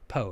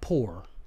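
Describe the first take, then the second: First: It is said plainly with a clean o vowel. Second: It is said with a southern drawl, like poor. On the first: The speaker calls it right. "It really is P O" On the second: The speaker calls it wrong. "not poor river. ... Not like I'm saying. Because someone said your southern accent comes out"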